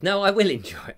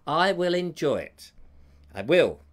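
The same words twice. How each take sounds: First: Said in the usual way. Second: Forced, deliberate assurance through gritted teeth. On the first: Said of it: "No, not through gritted teeth". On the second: Pretend. Reassuring Joe about Sunday's filming, through gritted teeth. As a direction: grit it out, insisting with put-on resolve. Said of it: "Through gritted teeth".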